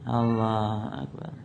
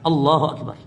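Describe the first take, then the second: First: It is said limply and weakly. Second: It is said firmly and decisively.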